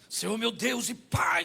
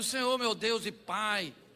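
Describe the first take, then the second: First: It is said forcefully, with high energy. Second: It is said calmly, with little energy.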